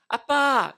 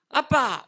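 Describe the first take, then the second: First: It is said in a sweet, coaxing tone. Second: It is said in an annoyed, irritated tone. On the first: The child is asking for pocket money. "용돈 달라는 말입니다" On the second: The child wants the father out of the room. "내 방에서 나가라는 뜻입니다"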